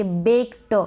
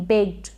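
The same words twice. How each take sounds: First: बेक्ड with a full "ta" tacked on; wrong take, the final T of बेक्ड fully voweled; overdone T. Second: बेक्ड as "bekt", the T barely released; slight final T. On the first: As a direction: say बेक्ड as "bek-ta". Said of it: "आप ऐसे नहीं बोलेंगे बेक्ड". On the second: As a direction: say बेक्ड with only a tiny t at the end. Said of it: "ट का बिल्कुल मामूली सा sound". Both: Shown as a demonstration.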